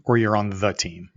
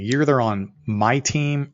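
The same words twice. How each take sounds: First: "the" leaned on as the contrast word; stress on THE. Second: "my" leaned on, drawn out slowly; stress on MY. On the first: Explaining his company saying, stress on "the". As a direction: hit the small word "the", slowly. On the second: Explaining his company saying, stress on "my". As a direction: hit the word "my" to set it apart. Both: Real, not acted. Contrasts two kinds of team.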